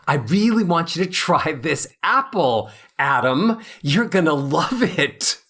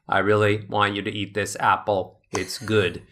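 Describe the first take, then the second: First: Warmly inviting, with real feeling; warm, engaged. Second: Flat unemotional. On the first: Offering Adam an apple, warm and enthusiastic. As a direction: make Adam want that apple. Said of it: "But if I say". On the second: Offering someone an apple with no emotion, flat and low. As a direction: say it with no feeling at all. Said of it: "So if I say". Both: Shown as a demonstration.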